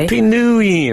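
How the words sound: The stress falls on the word new.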